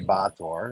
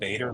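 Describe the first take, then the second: First: The surname is said the original Polish way. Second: The surname is said the everyday Canadian way. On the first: This is the name's original form. "it's actually Bator. It's Polish" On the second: This is how the speaker says it day to day. "I pronounce it Bader like all the other Canadians"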